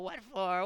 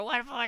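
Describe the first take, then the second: First: High creature question; first plaintive what for; creature asking. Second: Very high and louder; second, more desperate what for; more insistent. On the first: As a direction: ask plaintively. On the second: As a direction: push the question harder. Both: A narrator's reading. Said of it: "said the hobbit".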